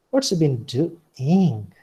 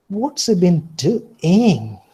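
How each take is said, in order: First: Slow, "What's" rising then falling; mild suspicion. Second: Slow, higher and louder, "he" swooping up then down; suspicious mocking. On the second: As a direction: doubt him, drag it out mockingly. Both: Shown as a demonstration. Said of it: "suspicion or mockery".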